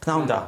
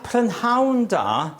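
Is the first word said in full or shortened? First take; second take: shortened; full. First: The first word is clipped into one syllable. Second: The first word keeps all its syllables. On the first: "say it quickly and it comes pnawn da" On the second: "prynhawn da is good afternoon"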